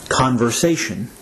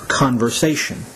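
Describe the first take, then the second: No difference in how they are said.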